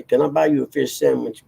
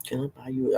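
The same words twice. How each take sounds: First: The full movie line said out, a bit higher; quote out loud. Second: Half-said movie line, softer, under the breath; muttered quote. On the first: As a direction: deliver the whole quote aloud in a light put-on voice. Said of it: "I don't say". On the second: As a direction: start the line quietly to yourself and stop. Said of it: "I'm just like". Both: Retold or imitated.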